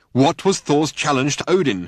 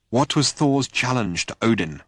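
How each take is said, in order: First: Higher and louder insistence; angry insistent demand. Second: Slower, restrained repeat; calmer, controlled asking; patience held in. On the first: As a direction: round on him and demand it. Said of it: "he insisted angrily". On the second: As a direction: keep the impatience out of it. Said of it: "trying hard to keep the impatience out". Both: A narrator's reading.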